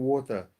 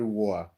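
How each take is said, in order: First: Said in the usual way. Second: Water with the T dropped, "war". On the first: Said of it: "We call it water". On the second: Shown as a demonstration. Telling viewers how UK doesn't say it, "war" with dropped T. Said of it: "So you start saying war".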